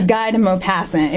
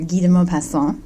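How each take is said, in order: First: The name is said in a Kansan accent. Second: The name is said with a French pronunciation.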